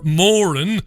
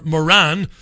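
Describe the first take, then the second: First: "Moran" stressed on the first syllable, like MORE-un; pronunciation of Moran. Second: "Moran" stressed on the second syllable, muh-RAN; English pronunciation of Moran. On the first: Host names the tycoon, "Moran" said MORE-un. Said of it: "as they say in this". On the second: Host mocks how England says it, "Moran" said muh-RAN. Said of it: "as they say in this godless". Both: Shown as a demonstration.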